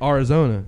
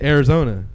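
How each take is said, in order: First: The first syllable sounds like 'ar'. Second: The first syllable sounds like 'air'. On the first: The speaker calls it right. "His name is Ari, A-R-I. That's the same way you spell Arizona" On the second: The speaker calls it wrong. "It's not A-I-R like how we how I used to say it"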